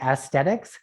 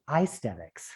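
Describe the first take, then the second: First: AESTHETICS starting with a short a; "aesthetics" with a flat ASS first syllable, not "eye"; pronounced "ass-thetics". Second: AESTHETICS starting with a long i; "aesthetics" with EYE as its first syllable; pronounced "eye-stetics". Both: Shown as a demonstration. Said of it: "I think aesthetics should be aesthetics".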